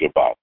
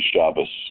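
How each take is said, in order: First: The word ends with a t sound. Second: The word ends with an s sound. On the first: It follows what the younger generation is taught. "You learned it with the T" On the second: It follows the older generations' pronunciation. "you do not hear Shabbos except from those people who follow older generations of rabbis"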